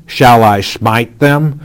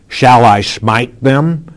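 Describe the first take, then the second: First: Eager repeat landing on them; excited repeat. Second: Eager, slow question rising at the end; King Jehoram asking eagerly whether to strike the enemy; excited question. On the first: King repeating his eager question to Elisha. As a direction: press the question again with relish. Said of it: "as he repeats the question twice". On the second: King asking Elisha, excited and rising. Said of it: "You can almost hear the excitement in Jehoram's". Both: Acted.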